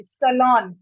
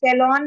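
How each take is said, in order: First: "सैलून" as suh-LON, short first vowel; correct "salon". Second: "सैलून" with a full first vowel, sai-lon; wrong "salon". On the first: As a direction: say "सैलून" starting with a plain suh. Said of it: "स का sound आएगा". ("सैलून" को सलॉन, छोटे स से) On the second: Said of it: "सैलून नहीं बोलेंगे". ("सैलून" की शुरुआत सै से) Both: Shown as a demonstration.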